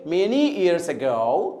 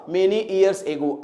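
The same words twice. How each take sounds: First: "ago" as "uh-GO", dropping low; correct pronunciation. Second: Very slow, "ago" as "AY-go"; wrong pronunciation. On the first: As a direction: model "ago" with light "uh" and weight on "go". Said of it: "अगर हम जानते हैं तो हम pronounce करेंगे". (सही उच्चारण, "ago" को "अ-गो") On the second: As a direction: demonstrate the mistake, "ago" opening on "ay". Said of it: "pronunciation नहीं जानेंगे तो फिर क्या प्रॉब्लम होगी". (धीमे में गलत उच्चारण, "ago" को "एगो") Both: Shown as a demonstration.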